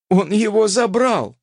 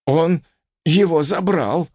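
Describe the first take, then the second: First: High outraged cry, falling at the end; alarmed cry. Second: Raised, puzzled exclamation rising at the end; bewildered. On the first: Repeats it in alarm. (громко, с возмущением) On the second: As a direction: say it at a loss, pitch lifted. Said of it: "растерянно произнёс". (растерянно) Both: A narrator's reading.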